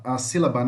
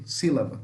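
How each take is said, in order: First: Said in the usual way. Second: Sílaba, the middle b turned into a v; sílaba with a soft v sound. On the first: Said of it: "em português falamos com B". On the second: Shown as a demonstration. Teacher showing how Paraguayan Guarani learners say sílaba with a v. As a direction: say sílaba as silava, v in place of b. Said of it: "o pessoal que estuda Guarani fala com V".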